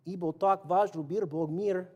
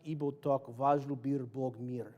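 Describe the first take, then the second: First: Russian with a playful Mexican accent, laughing. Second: Slow careful Russian take; Russian, plain. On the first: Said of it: "speak Russian with a Mexican accent". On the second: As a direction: say the Russian words slowly and straight. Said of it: "first I gotta say it in Russian". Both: Shown as a demonstration.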